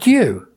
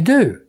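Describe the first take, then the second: First: A y sound follows the d. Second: The d goes straight into oo, no y. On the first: This is the form Americans do not use. "but not due" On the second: This is the form Americans use. "They'd say do"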